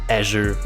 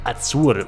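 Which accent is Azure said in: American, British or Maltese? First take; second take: American; Maltese. First: It is said with an American English pronunciation. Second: It is said the way locals in Malta say it. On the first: The speaker calls it wrong. "In American English it would be Azure Window" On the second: The speaker calls it right. "most people here in Malta say something like Azure window"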